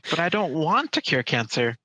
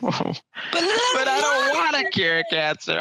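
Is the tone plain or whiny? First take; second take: plain; whiny. First: It is said in a plain, normal tone. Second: It is said whiny, like a toddler's tantrum.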